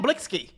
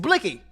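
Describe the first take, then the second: First: The name has an added 's' sound before 'ky'. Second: The name has no 's' sound before 'ky'. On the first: The speaker calls it wrong. "It's not Blicksky" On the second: The speaker calls it right. "It's Blicky"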